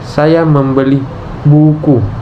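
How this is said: The word buku is stressed. What I bought is a book, nothing else. "Tekanan pada kata "buku""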